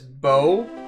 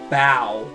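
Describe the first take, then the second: First: The name rhymes with go. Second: The name rhymes with wow.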